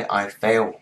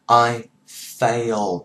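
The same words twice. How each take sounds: First: "I fail" with no final d; "I fail" as the wrong present form. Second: Slow loud "I failed" with the d sounded; "I failed" said carefully; correct failed. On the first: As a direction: drop the d in "I fail". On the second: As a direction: stress "failed" slowly with a final d. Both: Shown as a demonstration. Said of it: "Không phải I fail".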